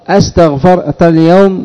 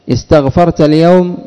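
First: The first word begins with an 'a' vowel. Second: The first word begins with an 'i' vowel. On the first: It is asked as a question. "استفهام" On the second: It is stated as a fact. "خبر"

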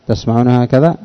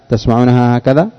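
The two takes are said the same way.

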